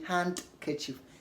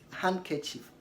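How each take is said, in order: First: The d sound is pronounced. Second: The d sound is left out. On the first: The speaker calls it wrong. "Don't say handkerchief. The D is silent" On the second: The speaker calls it right. "D is not pronounced in these common words like handkerchief"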